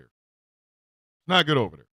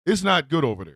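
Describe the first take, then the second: First: Slow and low, drawn out like a grim warning; slow low foreboding repeat; ominous warning. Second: Said in the usual way. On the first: Acted. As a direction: let it hang, slow and heavy. Repeats warning line twice.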